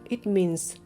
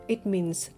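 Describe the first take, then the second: The two takes are said the same way.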